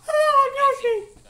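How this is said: The voice is high-pitched. This is how the voice sounded before puberty. "I just had to go from like"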